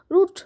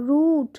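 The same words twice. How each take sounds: First: রুট said quick, with a short oo; short vowel demo. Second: রুট with the vowel held long, "rooot"; drawn-out oo. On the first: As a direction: cut রুট short, like "rut" with an u. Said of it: "এমনি আমরা বলি না". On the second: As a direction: stretch the middle of রুট before the t. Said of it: "এরকম বলি". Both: Shown as a demonstration.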